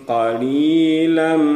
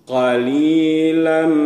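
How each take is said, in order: The two takes are said the same way.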